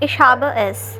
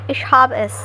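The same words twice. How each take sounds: First: Each word is said separately and fully. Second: The words run together with blended sounds. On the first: "instead of saying" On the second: "with a slight blending of sounds"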